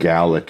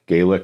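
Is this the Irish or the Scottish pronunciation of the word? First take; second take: Scottish; Irish. First: It is pronounced the way people say it in Scotland. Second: It is pronounced the way people say it in Ireland. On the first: "is what you say in Scotland" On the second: "is how you say it in Ireland"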